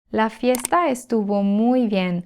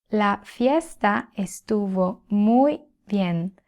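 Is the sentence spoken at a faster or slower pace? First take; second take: faster; slower. First: It is spoken at a faster pace. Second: It is spoken at a slower pace.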